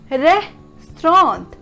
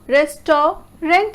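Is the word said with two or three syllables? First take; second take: two; three. First: It is said in two syllables, res-trawnt. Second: It is said in three syllables, rest-ta-rant. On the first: The speaker calls it right. "But no, it will be pronounced as restaurant" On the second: The speaker calls it wrong. "R E S, rest, fine. Ta, T A U, ta, restaurant"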